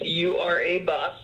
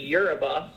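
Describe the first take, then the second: First: The start is said as separate letter names. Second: The start is said like the word euro. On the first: This shows that the name is another name spelled backwards. "whenever I explain it to someone, I usually say it's U-R-A-Bus" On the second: This is the everyday name of the company. "We pronounce it just Eurobus"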